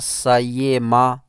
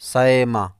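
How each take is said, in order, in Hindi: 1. बीच की ध्वनि पूरा य ग्लाइड है। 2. बीच की ध्वनि ग्लोटल स्टॉप और य के बीच है। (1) "ना सयेमा बिल्कुल या करके" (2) "बल्कि दरमियानी"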